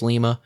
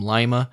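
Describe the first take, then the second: First: It is pronounced the way the military says it. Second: It is pronounced the way Indiana locals say it. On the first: This is how the military says the word. "I know in the military it's Lima" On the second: This is how locals say the place name. "Here in Indiana, ... We pronounce them Lima"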